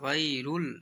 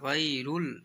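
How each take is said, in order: First: The vowel after 'ghayr' is a 'u'. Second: The vowel after 'ghayr' is a 'u'.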